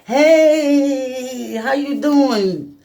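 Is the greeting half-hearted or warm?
warm. The greeting sounds warm and enthusiastic.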